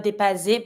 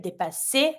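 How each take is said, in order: First: "dépasser" wrongly said with a buzzing Z for the double S; mispronounced with Z. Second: "dépasser" with a clean hissed S for the double S; correct S sound. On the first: Teacher warning learners of a mistake, Z in place of S. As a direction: say "dépasser" as "day-pah-zay", the learner's mistake. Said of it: "Not, careful, not dépasser". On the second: Teacher correcting the Z mistake, clear S sound. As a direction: say "dépasser" as "day-pah-say", S never Z. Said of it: "Every time you have the double S, S sound". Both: Shown as a demonstration.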